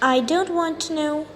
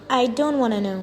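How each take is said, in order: First: 'Want to' is said fully, both words clear. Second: 'Want to' is reduced to a quick 'wanna'.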